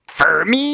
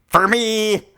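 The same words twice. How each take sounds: First: It is said in a high falsetto voice. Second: It is said at a normal speaking pitch.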